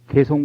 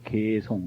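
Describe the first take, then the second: First: The first syllable is short and plain. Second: The first syllable is long and high. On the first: The speaker calls it wrong. "개송 그러면 안 되고요" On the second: The speaker calls it right. "개자는 높은 자라 길게 해야 돼요"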